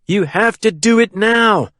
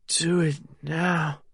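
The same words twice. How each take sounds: First: High, insistent command; urgent cry. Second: Soft, slow, slurred and a little higher; slurred echo. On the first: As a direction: cry out, pressing for action at once. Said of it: "he cried". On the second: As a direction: echo it weakly, words dragging. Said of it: "her voice slurred". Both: A narrator's reading.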